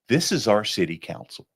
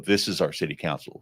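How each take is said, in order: First: It is said with a proud, pleased tone. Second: It is said with a scornful, disappointed tone. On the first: The people are pleased with their council. "I want people to be proud" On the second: The people are unhappy with their council. "Same words, totally different meaning"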